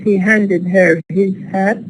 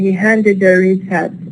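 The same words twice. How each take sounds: First: The h sounds in 'her' and 'his' are pronounced. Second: The h sounds in 'her' and 'his' are dropped.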